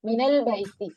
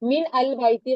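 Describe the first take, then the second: First: Min runs into al with an a vowel. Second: Min and al are said as separate words. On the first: The speaker calls it right. "കുറച്ചും കൂടി ഈസി ആയി ആവും" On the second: The speaker calls it wrong. "മിൻ അൽ ബൈത്തി വായിക്കേണ്ടി വരും"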